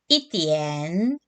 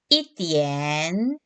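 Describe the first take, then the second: No difference in how they are said.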